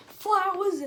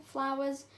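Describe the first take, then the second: First: FLOWERS cried out high and loud; loud exclamation. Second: Said in the usual way. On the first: Acted. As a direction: burst out with a louder, higher exclamation. Outburst at the word flowers.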